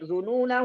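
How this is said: The reading runs on into the next word. "kalau lanjut"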